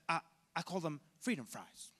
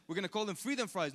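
First: Halting presidential impression with a stammered start; George Bush. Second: Said in the usual way. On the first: Lecturer mimicking the president renaming French fries, George Bush impression. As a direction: do a mocking Bush voice. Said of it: "that's George Bush, I'm sorry". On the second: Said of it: "He said".

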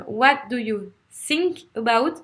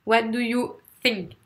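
First: "think" said as "sink", slowly; French learner's S. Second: "think" with a careful voiceless th; th between teeth. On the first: Teacher showing the francophone mistake Anglophones joke about, "think" as "sink". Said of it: "on n'arrive pas à faire le T H". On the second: Teacher correcting the question for learners, "think" with a true th. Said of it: "T H entre les dents". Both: Shown as a demonstration.

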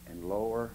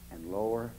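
The two takes are said the same way.

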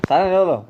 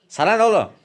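First: Loud, raised snap back; sert çıkışma. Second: High, loud snap back; sert çıkışma. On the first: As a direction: tell him to mind his business. Kavgacı hasta tekrar çıkışıyor. (sinirli, yüksek sesle çıkışma) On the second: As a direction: bite back at the meddler. Kavgacı hasta doktora çıkışıyor. (tepkili, yüksek sesle çıkışma) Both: Acted.

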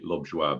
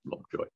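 First: Lovejoie said French-style, ending "zhwah"; French pronunciation. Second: Said in the usual way. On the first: Shown as a demonstration. Showing the surname's French original, Lovejoie ending "zhwah". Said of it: "French originally, so it should be". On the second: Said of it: "but everybody says Lovejoy".

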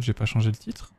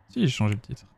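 First: "j'ai pas changé le titre?" asked with a rising end; rising question. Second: "Si, j'ai changé le titre." settled with a falling end; falling statement. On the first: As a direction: lift "j'ai" into a doubtful question. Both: Real, not acted.

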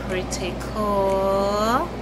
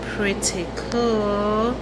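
No difference in how they are said.

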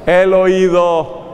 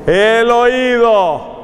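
First: "El oído" drawn out slowly, weight on "El"; slow, teasing "El oído"; slow reveal. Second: "El oído" very slow, stress on "oído"; drawn-out "oído"; slow emphatic repeat. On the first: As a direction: stretch "El oído" for suspense. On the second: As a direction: repeat "El oído" slowly, landing on "oído". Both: Shown as a demonstration. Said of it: "¿Cuál fue el sentido que no mencioné?".

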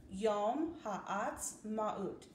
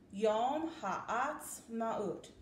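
First: Yom Ha'atzmaut said very slowly, syllable by syllable; slow careful pronunciation. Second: Yom Ha'atzmaut drawn out slowly, every syllable clear; slow careful pronunciation. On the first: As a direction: spell out Yom Ha'atzmaut slowly for children to copy. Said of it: "Listen to me say it one more time". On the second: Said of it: "Can you try to say it with me". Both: Shown as a demonstration.

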